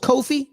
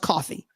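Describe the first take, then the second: First: It does not sound like the word coffee. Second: It sounds just like the word coffee. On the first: The speaker calls it wrong. "I thought it was Kofi" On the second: The speaker calls it right. "but now it's coffee"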